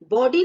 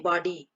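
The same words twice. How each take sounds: First: बॉडी as "bo-dee", louder; बॉडी read with o as spelt; wrong closed o. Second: बॉडी as "baw-dee", pitched lower; बॉडी with vowel between aa and o; correct open vowel. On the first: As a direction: punch out बॉडी with a long pure o. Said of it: "बॉडी नहीं पढ़ते इसको". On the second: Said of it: "हम क्या पढ़ते हैं". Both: Shown as a demonstration.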